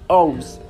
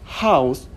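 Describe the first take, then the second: First: The word begins without any h sound. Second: The word begins with a clear h sound.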